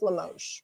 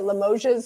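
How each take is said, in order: First: No S sound is heard at the end. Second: An S sound is heard at the end. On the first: The speaker calls it right. "it's just Limoges" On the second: The speaker calls it wrong. "for a long time I called it Limoges"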